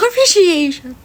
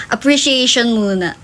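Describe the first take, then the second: First: Appreciation said higher, slower, with a laugh; laughing repeat. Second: Said in the usual way. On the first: Shown as a demonstration. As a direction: repeat Appreciation giggling at yourself.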